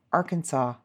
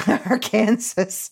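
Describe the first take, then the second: First: Said in the usual way. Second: Arkansas said as "ar-KAN-zus"; mispronounced Arkansas. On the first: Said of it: "the only acceptable pronunciation is in three syllables". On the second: Shown as a demonstration. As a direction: say Arkansas wrongly, like Kansas with "ar" in front. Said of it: "Arkansas incorrectly".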